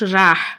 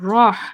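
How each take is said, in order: First: The vowel is open and light, like 'a'. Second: The vowel is heavy and rounded, like 'o'. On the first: The speaker calls it wrong. "Not রাহ" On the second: The speaker calls it right. "রহ নট রাহ"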